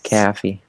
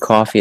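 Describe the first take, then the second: First: The vowel is fronted like in cat. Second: The vowel is the usual open vowel.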